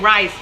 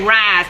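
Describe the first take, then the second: First: It is said in a standard accent. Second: It is said in a rural Southern accent. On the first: Country people do not say it this way. "They don't say rice" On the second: This is how country people say it. "country folks say rice"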